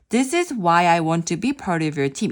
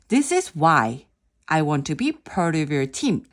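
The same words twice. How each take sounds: First: It is read straight through without a pause. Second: A short pause sets off the following words. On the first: The speaker calls it wrong. "그냥 제가 읽을 때는" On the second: The speaker calls it right. "이렇게 어 잠깐 퍼즐을 이용하면"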